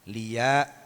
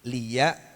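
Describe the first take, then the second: First: The syllable liya is dragged out. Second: The syllable liya is said briefly. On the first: The speaker calls it wrong. "ampun ngantos liya nah ngaten. Ampun diseret" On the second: The speaker calls it right. "Jadi liya kulu"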